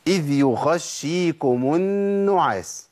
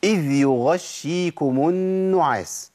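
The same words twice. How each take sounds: First: Slow chant, a kha in place of ghayn in يغشيكم; ghayn turned kha. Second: Slow chant, clean ghayn in يغشيكم; correct voiced ghayn. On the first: Teacher shows the mistake, ghayn turned to kha. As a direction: let breath run so يغشيكم sounds like يخشيكم. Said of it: "الخطأ فين؟". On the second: Teacher gives the correct reading, voiced ghayn in slow recitation. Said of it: "طيب ده الصواب". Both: Shown as a demonstration.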